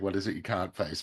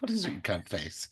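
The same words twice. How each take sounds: First: It is said in the speaker's own accent. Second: It is said in a put-on foreign accent.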